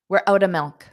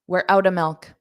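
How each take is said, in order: No difference in how they are said.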